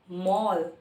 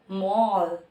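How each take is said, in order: Both takes have the same delivery.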